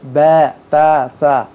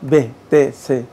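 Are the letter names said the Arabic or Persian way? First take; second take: Arabic; Persian. First: The letter names end in an 'a' vowel. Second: The letter names end in an 'e' vowel. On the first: "আরবি উচ্চারণের মধ্যে" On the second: "ফার্সি উচ্চারণটা এভাবে"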